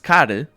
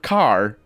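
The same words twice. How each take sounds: First: It is said with a Portuguese accent. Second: It is said with a plain English accent.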